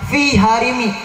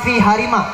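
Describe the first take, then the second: First: The last word ends with an 'i' vowel. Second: The last word ends with an 'a' vowel. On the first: The speaker calls it right. "menggunakan kasroh" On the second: The speaker calls it wrong. "bukan menggunakan fathah"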